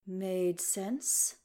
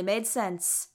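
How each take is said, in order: First: "Made sense?" asked softly, pitch rising on sense; worried question. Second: Said in the usual way. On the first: A narrator's reading. Legolas echoes, worried.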